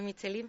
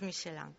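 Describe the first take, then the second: First: The name is said with a Spanish pronunciation. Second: The name is said with a foreign pronunciation. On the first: This is how Spaniards adapt the name. "como todo lo españolizamos, decimos Michelin" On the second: This is how people from abroad say the name. "quien nos oiga de fuera es Michelin"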